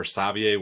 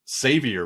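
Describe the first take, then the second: First: Savier said French-style, sah-vee-AY; alternative pronunciation. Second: Savior said like the English word "savior"; tentative pronunciation. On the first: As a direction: say Savier with an "ay" ending. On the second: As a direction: say Savior as SAYV-yer. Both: Real, not acted. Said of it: "however you say the".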